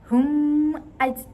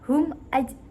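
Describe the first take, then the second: First: The m sound is not pronounced clearly. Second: The m sound is pronounced clearly and distinctly. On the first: The speaker calls it wrong. "tidak boleh dibaca" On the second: The speaker calls it right. "karena cara membacanya yaitu jelas dan terang"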